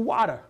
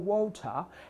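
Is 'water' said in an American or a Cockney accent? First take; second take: American; Cockney. First: It is said in an American English accent. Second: It is said in a Cockney English accent. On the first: "I get to America, and very quickly it changes to water" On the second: "I was very cockney"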